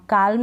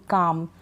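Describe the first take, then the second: First: काल्म with a clear L before the M; L wrongly sounded. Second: काम with a long vowel straight into M; silent L. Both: Shown as a demonstration. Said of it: "काल्म नहीं पढ़ेंगे".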